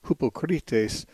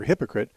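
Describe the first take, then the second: First: "hypocrites" said the Greek way, hoo-po-KREE-tes, slow and even; Greek pronunciation. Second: Said in the usual way. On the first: Shown as a demonstration. Radio host explaining the Bible's word to a caller, "hypocrites" in careful Greek. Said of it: "The Greek word". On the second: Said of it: "The Greek word hypocrites".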